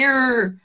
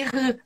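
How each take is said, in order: First: "R" held as an English "errr", tongue curled back. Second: "R" sounded as a breathy throat H; Portuguese guttural R. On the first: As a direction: hum out the "R" as an American "er". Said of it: "aqui vai ser aquele R". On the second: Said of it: "no inglês não existe esse R". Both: Shown as a demonstration.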